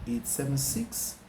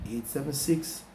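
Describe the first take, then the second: The two takes are said the same way.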